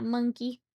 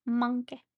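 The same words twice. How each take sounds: First: Said in the usual way. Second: "Monkey" with an open "ah" and a final "uh"; silly pronunciation. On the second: Pretend. Streamer naming the model, "Monkey" said as silly "MAHN-kuh". Repeats monkey with altered vowels.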